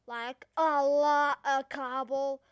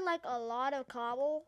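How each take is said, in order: First: A LOT OF COBBLE loud and slow; heavy emphasis. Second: Said in the usual way. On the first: Real, not acted. Player tells viewers how much he'll mine, heavily emphatic "a lot". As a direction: belt out "a lot of cobble", each word drawn out.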